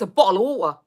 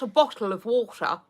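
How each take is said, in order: First: The t sounds are glottal, in her UK accent. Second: The t sounds are clearly pronounced.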